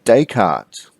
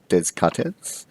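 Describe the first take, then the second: First: The name is said with s and t silent. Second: The name is said with s and t sounded. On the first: The speaker calls it right. "It is" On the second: The speaker calls it wrong. "Do not pronounce it"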